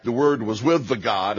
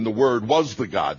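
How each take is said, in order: First: "with" stressed in a quick contrast. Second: "was" stressed in contrast, before the God. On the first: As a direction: lean on "with" before the God. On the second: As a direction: punch the word "was". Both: Shown as a demonstration. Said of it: "John saying back to back".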